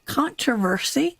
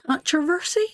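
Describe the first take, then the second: First: Controversy. said carefully, syllable by syllable; nailing the tricky word Controversy. after a stumble; word got right. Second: Controversy? tried out with a questioning rise; sounding out Controversy? hesitantly on the stream; unsure try at a word. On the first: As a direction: settle on Controversy. with care. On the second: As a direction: test the word Controversy? as if unsure it's right. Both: Real, not acted. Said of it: "there's a big word for me".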